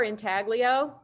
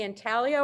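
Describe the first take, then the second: First: "intaglio" with the g sounded; "intaglio" said as in-TAG-lee-oh; variant pronunciation. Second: "intaglio" with a silent g; "intaglio" said as in-TAL-yo; variant pronunciation. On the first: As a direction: say "intaglio" as spelt, hard g. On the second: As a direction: say "intaglio" the Italian way, g unsounded. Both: Shown as a demonstration. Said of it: "you are mispronouncing it".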